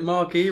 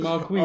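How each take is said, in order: First: The word ends on a long ee vowel. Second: The word ends with a z sound. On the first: The speaker calls it wrong. "You're pronouncing it Marquee" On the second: The speaker calls it right. "rather than Marquise"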